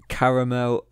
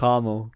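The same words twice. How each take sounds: First: It is said with a British accent. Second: It is said with an American accent.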